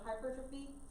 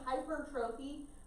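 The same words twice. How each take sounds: First: The word is said with its standard pronunciation. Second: The word is said the way it looks written. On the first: The speaker calls it right. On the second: The speaker calls it wrong.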